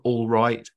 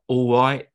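First: The L and the T are fully pronounced. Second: The L is vocalized, with a glottal T. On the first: "instead of all right" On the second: "maybe the kind of L vocalization. So they're like all right"

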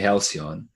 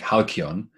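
First: The word is said with an English-style pronunciation. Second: The word is said with a Greek-style pronunciation. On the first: "In English it would be halcyon" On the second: "I pronounce it in the Greek"

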